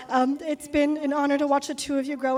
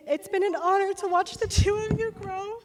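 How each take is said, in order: First: Said in the usual way. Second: Fighting back tears through the line; choked up. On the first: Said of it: "I couldn't do it". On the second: Real, not acted. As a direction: voice breaking, higher, close to tears. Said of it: "I know, I couldn't do it".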